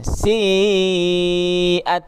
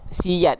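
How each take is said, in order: First: No 'y' glide is heard between the vowels. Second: A 'y' glide joins the two vowels. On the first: The speaker calls it right. "Yang betul siat" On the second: The speaker calls it wrong. "ada yang baca siyat ... itu adalah bacaan yang salah"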